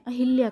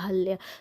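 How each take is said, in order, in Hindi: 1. 'h' के बाद 'i' स्वर सुनाई देता है। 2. 'h' के बाद कोई 'i' स्वर सुनाई नहीं देता। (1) "गलत करते हैं, अहिल्या करते हैं।" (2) "शुद्ध रूप होता है वो होता है अहल्या"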